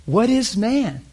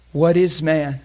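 First: "What is man?" higher and slow, stretched out; impassioned question. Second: Said in the usual way. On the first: Shown as a demonstration. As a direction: ask "What is man?" in awe.

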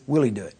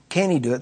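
First: "will" carries the question, lower and softly falling; stress on WILL. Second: "can" carries the question; stress on CAN. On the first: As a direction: lean on "will", let the rest fall. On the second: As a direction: lean on "can", let the rest fall. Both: Shown as a demonstration. Contrasts two questions by key word.

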